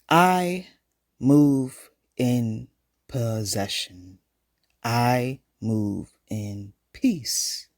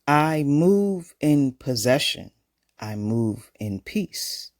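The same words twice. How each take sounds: First: It is said at a slower pace. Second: It is said at a faster pace.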